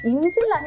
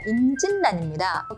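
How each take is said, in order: First: The second syllable ends with an l sound. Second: The second syllable ends with an n sound. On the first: The speaker calls it wrong. "임질 좀 이상하죠" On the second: The speaker calls it right. "니은으로 바뀌는 경우가 있습니다"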